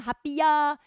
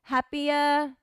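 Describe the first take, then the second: First: "happier" with a big Japanese "yaa" ending; katakana pronunciation. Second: "happier" with a light trace of final R; slight R. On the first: Teacher showing the version to avoid, katakana-style "happier". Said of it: "そんなに大きくカタカナの発音は". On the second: Teacher modelling for learners, "happier" with faint R. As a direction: end "happier" on a relaxed schwa touched by R. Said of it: "最後にちょっとRがついてる". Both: Shown as a demonstration.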